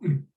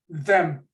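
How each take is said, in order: First: The th sound is dropped entirely. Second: The word has a full, clear vowel. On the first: "an occasional weak form" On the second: "it's got a strong form"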